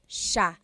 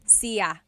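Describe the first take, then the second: First: It is said as one syllable, sha. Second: It is said as two syllables, see-ya. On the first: The speaker calls it right. "but it's actually pronounced sha" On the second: The speaker calls it wrong. "It looks like it should be pronounced siya"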